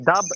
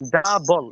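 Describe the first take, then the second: First: The word ends without any L sound. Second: The word ends with a clear L sound. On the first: The speaker calls it wrong. "ডাব এভাবে না" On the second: The speaker calls it right. "ডাবল এভাবে"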